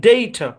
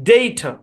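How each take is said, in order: The two takes are said the same way.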